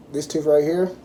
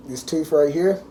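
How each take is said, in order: Both takes have the same delivery.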